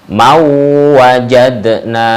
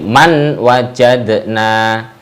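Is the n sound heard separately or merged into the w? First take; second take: merged; separate. First: The n merges into a doubled w sound. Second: The n is heard separately before the w. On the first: The speaker calls it right. "Seperti mau wajadna" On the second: The speaker calls it wrong. "tidak boleh man wajadna"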